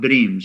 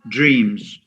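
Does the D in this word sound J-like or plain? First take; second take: plain; J-like. First: The D is said as a plain D sound. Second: The D before R sounds like a J. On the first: The speaker calls it wrong. "So it's not dreams" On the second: The speaker calls it right.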